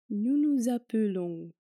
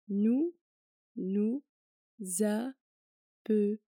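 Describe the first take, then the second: First: It is said at normal speed. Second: It is said slowly.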